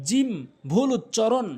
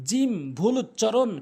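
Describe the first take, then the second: The two takes are said the same way.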